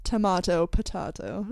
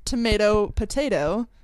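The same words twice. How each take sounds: First: "tomato, potato" with broad ah, tuh-MAH-toe, puh-TAH-toe; imitated English way. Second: "tomato, potato" with long ay, tuh-MAY-toe, puh-TAY-toe; Canadian way. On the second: Retold or imitated. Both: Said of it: "I would have assumed".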